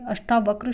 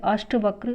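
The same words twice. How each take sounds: First: अष्टावक्र with long "taa"; long aa inside अष्टावक्र; correct form. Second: अष्टवक्र with short "ta"; no long aa inside अष्टवक्र; wrong form. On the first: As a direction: say अष्टावक्र as ash-TAA-vakra. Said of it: "शुद्ध है". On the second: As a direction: say अष्टवक्र as ASHT-vakra. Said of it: "अष्टवक्र अशुद्ध है". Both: Shown as a demonstration.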